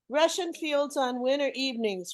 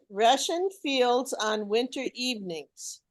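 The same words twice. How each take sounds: First: It is read at a quicker pace. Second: It is read at a slower pace.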